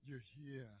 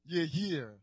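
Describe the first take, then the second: First: Much softer, almost under the breath; hushed repeat. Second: Said in the usual way. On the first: Shown as a demonstration. Preacher hushing the words to the congregation. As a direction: let it drop to a hush. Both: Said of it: "preacher repeating to congregation".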